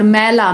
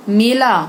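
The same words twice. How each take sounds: First: मैला loud with an open AE; AI vowel. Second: मेला loud with a closed long E; E vowel. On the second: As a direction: say मेला as 'may-laa'. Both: Shown as a demonstration. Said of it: "उच्चारण पर ध्यान दीजिए".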